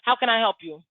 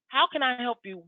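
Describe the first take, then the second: First: It sounds offhand and insincere. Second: It sounds warm and genuinely meant.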